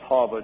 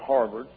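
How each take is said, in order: First: It is said in a Northeastern accent. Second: It is said in a West Texas accent.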